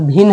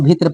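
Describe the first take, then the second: First: The word ends in a doubled n sound. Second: The word ends in a t-r cluster sound. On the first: The speaker calls it right. "यहाँ पर भिन्न है" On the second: The speaker calls it wrong. "इसको भित्र पढ़ता है। तो ये जो कि गलत है"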